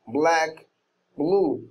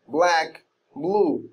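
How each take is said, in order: No difference in how they are said.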